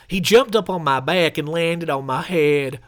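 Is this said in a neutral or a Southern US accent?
Southern. It is said in a Southern US accent.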